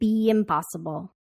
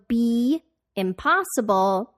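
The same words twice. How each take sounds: First: A y sound links the two words together. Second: The two words are said without a linking y.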